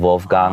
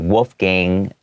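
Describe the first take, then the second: First: The name begins with a German V sound. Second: The name begins with an English W sound. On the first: "it's more like a V sound" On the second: "as an American English background person, I would say"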